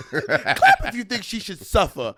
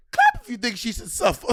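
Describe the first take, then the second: First: Higher, slow, laughing through it; imitating Wendy Williams, laughing. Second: Higher, deadpan Wendy Williams line; imitating Wendy Williams. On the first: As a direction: stretch it out while cracking up. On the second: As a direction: deliver it like a talk-show host. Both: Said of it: "She just goes".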